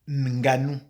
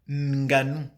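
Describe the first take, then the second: The two takes are said the same way.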